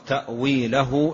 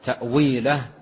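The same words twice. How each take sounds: First: The word ends with h followed by u. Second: The word ends on a bare h sound. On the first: The word is joined to the next words. "عند الوصل ينطق تأويله إلا الله بضم الهاء" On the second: The reader stops on this word. "إذا وقفت عليها"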